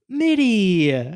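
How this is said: The name is said proudly and warmly.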